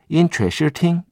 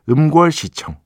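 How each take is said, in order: First: The name is read with Mandarin Chinese sounds. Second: The name is read with Korean syllable sounds. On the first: "중국어 발음으로 하면" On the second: "한국 그 한자 발음으로 하면"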